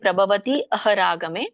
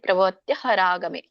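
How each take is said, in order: First: The words stay separate, keeping the final i. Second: The words run together as tya, with no gap. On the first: "ಪ್ರಭವತಿ ಅಹರಾಗಮೆ ಅಂತ ಹೇಳಿ" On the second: "ಅಲ್ಲಿ ತ್ಯ ಆದ್ಮೇಲೆ gap ಕೊಡ್ಬೇಡಿ"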